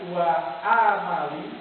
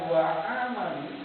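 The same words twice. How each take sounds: First: The word starts with a throaty, pressed sound. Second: The word starts with a plain vowel sound. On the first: It means deeds. The speaker calls it right. "Kalau itu dibaca wa amali" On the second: It means wishful hopes. The speaker calls it wrong. "bukan wa amali"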